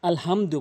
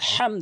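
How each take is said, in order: First: The h is a light breathy sound. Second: The h is pressed from the throat. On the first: The speaker calls it wrong. "অধিকাংশ লোক এখানে ভুল করে ... যার ফলে নামাজ ভেঙে যায়" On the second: The speaker calls it right. "বলতে হবে আলহামদু, এই বড় হায়নে উচ্চারণ করতে হবে হলকের মাঝখান থেকে"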